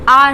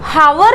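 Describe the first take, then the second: First: The word begins with a vowel sound. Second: The word begins with an h sound. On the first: The speaker calls it right. "ये आर आर है" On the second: The speaker calls it wrong. "हावर नहीं है"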